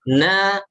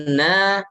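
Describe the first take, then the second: First: The syllable is light, with a clear a. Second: The syllable is light, with a clear a.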